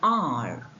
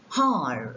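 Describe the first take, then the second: First: The word starts with a vowel sound. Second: The word starts with an H sound. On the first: The speaker calls it right. "some words beginning with a mute H" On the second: The speaker calls it wrong. "we don't pronounce them as"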